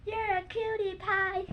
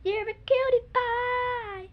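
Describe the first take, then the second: First: Slow cooing cutie pie. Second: Slow, higher cooing voice; cutie voice. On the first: Kid demonstrating the cutie pie fall for viewers. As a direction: coo it while falling. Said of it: "it goes like that". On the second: Kid showing how to coo at a cuddly toy. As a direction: coo it at a cute animal. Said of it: "and go like". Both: Shown as a demonstration.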